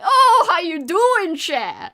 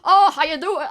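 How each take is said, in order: First: It is said in a Cajun New Orleans accent. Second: It is said in a fake movie Southern accent.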